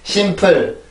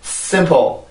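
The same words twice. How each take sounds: First: Both syllables are pronounced fully and evenly. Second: The second syllable is soft, weak and quick. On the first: "한국어는 simple, simple 이렇게 발음을 하는 거고" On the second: "영어는 simple, simple, simple 이렇게 발음을 하는 거예요"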